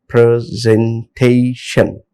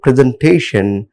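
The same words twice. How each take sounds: First: "presentation" slowly split into four syllables. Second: Said in the usual way. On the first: Shown as a demonstration. Teacher showing a polysyllabic word, "presentation" broken into syllables. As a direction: draw out each syllable of "presentation". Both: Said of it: "it comes under polysyllabic word".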